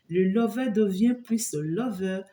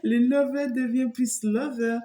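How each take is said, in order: First: Said in the usual way. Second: Higher, laughing playful repeat. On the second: Real, not acted. Reader repeats her pun to viewers, higher and laughing. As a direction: say it again, still amused by the pun.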